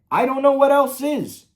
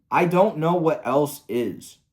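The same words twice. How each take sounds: First: Much higher and louder, fully fed up; exasperated outburst. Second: Said in the usual way. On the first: Real, not acted. Ranting about the creator, exasperated outburst. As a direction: throw the line up in disbelief.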